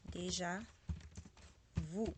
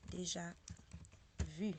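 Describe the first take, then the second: First: "déjà vous" ending in an oo sound; "vous" with oo instead of French u; American mispronunciation. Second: "Déjà vu" with a tight French u, in two parts; "vu" with rounded front vowel, never oo; correct French pronunciation. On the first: Retold or imitated. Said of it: "American people usually said". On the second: Shown as a demonstration. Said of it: "the way I said it".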